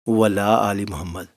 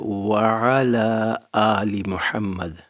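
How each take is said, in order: First: It is said quickly, with 'wa ala' run together. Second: It is said slowly, with 'wa ala' kept apart. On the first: Blessings are not sent on the family of Muhammad. The speaker calls it wrong. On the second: Blessings are asked for the family of Muhammad. The speaker calls it right.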